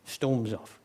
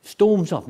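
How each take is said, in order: First: Softer, sulky aside; muttered sulk. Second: Louder, huffy storming off; sulky stomp-off. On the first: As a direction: grumble it under your breath. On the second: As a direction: bark it like a stroppy teen leaving the room. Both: Retold or imitated. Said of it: "He's like a sulky teenager".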